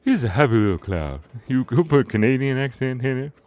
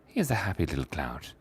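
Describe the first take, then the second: First: Put-on Canadian accent. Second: Said in the usual way. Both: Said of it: "He's Canadian".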